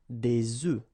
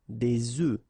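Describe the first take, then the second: Both takes have the same delivery.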